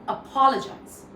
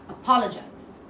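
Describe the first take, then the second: No difference in how they are said.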